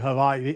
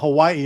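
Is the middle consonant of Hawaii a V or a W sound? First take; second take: V; W. First: The middle consonant is a v sound. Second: The middle consonant is a w sound.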